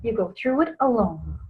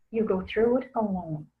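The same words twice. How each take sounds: First: Said in the usual way. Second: "alone" dropped very soft; quiet emphatic repeat. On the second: Shown as a demonstration. Teaching grief is lonely, a soft repeated lesson point. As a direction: repeat it softer to let "alone" sink in.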